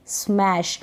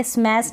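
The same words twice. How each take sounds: First: Said in the usual way. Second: स्मैश ending in s, "smass"; wrong pronunciation. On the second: Shown as a demonstration. Teacher shows what not to read, स्मैश as स्मैस. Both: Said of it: "इसको पढ़ेंगे स्मैश नहीं".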